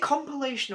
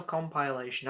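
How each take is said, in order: First: Compilation said com-puh-LAY-shun; short-vowel pronunciation. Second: Compilation said com-pie-LAY-shun; long-vowel pronunciation. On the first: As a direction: say compilation with a weak "puh" in the middle. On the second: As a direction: say compilation with a clear "pie" in the middle. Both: Shown as a demonstration. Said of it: "I don't know how you pronounce it".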